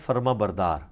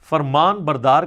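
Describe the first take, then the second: First: The first part ends without an n sound. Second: The first part ends with an n sound. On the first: The speaker calls it wrong. "ये Urdu linguistic के अंदर ये लफ्ज गलत है" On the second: The speaker calls it right. "फरमान बरदार का मतलब होता है फरमान उठाकर चलने वाला"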